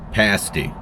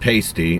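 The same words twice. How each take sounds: First: The first vowel sounds like 'pass'. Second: The first vowel sounds like 'pay'. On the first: The speaker calls it right. "it's actually pronounced pasty" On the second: The speaker calls it wrong. "I said that wrong when I said pasty"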